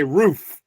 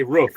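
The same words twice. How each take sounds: First: Roof with a long oo, as in 'food'; Florida roof. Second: Roof with a short vowel, as in 'book'; Michigan roof. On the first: Showing how Florida says it, long-vowel roof. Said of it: "in Florida, we say roof". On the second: Showing how Michigan says it, short-vowel roof. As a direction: say roof short, like 'ruff' rounded to 'hoof'. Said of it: "in Michigan, they say roof". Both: Shown as a demonstration.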